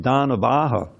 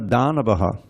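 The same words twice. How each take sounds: First: The A before the final H is long. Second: The A before the final H is short. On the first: The speaker calls it right. "it's Danavaha" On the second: The speaker calls it wrong. "That means it's not Danavaha"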